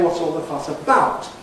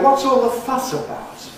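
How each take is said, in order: First: The main accent falls on about. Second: The main accent falls on fuss. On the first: The speaker calls it wrong. "we don't accent prepositions unless there's some special reason" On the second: The speaker calls it right. "by default, it's placed on the last content word"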